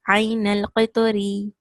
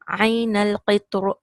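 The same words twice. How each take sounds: First: The final r is light, with an i vowel. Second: The final r is heavy, without a vowel. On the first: The reciter continues without stopping. "you will have ra kasra ri, so it will be light" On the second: The reciter stops on the word. "But when you stop"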